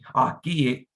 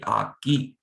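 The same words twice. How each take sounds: First: The two vowel sounds are said separately. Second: The two vowel sounds are merged together. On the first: The speaker calls it wrong. "You're not saying akix" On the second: The speaker calls it right. "you're just meshing the E sounds together to just get akix"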